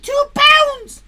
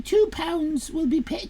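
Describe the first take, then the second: First: Two pounds shouted high and loud; mock-excited "Two pounds"; loud high emphasis. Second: Said in the usual way. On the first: Shown as a demonstration. Reading the prize to chat, loud high exclamation.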